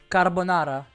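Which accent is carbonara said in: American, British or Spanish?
Spanish. It is said in a Spanish accent, rolled r. "in Spanish, since they do roll the roll the R's"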